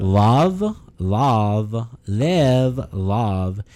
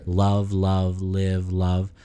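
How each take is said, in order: First: Drawn-out California "Love, love, live, love", tongue forward; California accent. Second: "Love, love, live, love" with each L touched behind the top teeth; tongue behind teeth. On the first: Podcaster demonstrating a California accent, tongue forward on each L. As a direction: push the tongue in front of the teeth for a California accent. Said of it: "if you want that California accent, you gotta put your tongue in front".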